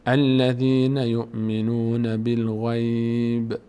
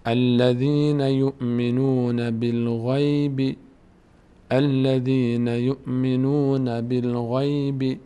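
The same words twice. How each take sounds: First: Slow recited "بالغیب" closing on a bare b; recitation with a stop. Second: Slow recited "بالغیب" ending open on -bi; continuing recitation. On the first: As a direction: stretch the words, drop the final vowel of بالغیب. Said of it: "خواست به ایسته وقف". (تلاوت کشیده، وقف روی ب «بالغیب») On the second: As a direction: stretch each word, voice the final kasra of بالغیب. (تلاوت کشیده، «بالغیب» با کسرهٔ پایانی) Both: Shown as a demonstration.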